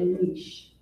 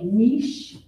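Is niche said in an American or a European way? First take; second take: American; European. First: The word is said the American way. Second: The word is said the European way. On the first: "We say a niche" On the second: "The Europeans say niche"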